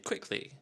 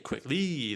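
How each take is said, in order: First: The stress is on the first syllable. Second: The stress is on the second syllable. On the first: The speaker calls it right. "they say quickly" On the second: The speaker calls it wrong. "People don't say quickly"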